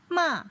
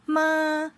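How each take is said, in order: First: The pitch falls sharply from high to low. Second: The pitch stays high and level. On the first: "fourth tone is falling from the highest point" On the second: "they have the high flat level of the tone"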